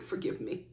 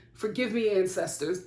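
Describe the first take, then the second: First: Breathy whisper asking forgiveness; hushed mock apology to the ancestors; whispered plea. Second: Said in the usual way. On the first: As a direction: whisper it like a guilty confession.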